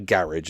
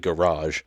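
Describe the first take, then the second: First: The word is said in a non-American way. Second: The word is said in an American way. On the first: "It's not a garage" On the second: "I have to pronounce like an American for this song"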